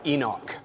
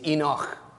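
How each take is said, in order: First: The name ends with a hard k sound. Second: The name ends with a throaty ch sound. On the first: The speaker calls it wrong. "I know you're going to call him Enoch. He is not Enoch. That would be a K" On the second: The speaker calls it right. "He is Enoch, as in Loch Lomond"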